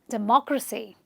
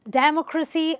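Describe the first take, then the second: First: The stress is on the second syllable. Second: The stress is not on the second syllable. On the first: The speaker calls it right. "the actual way of saying it is" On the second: The speaker calls it wrong. "A lot of people say democracy"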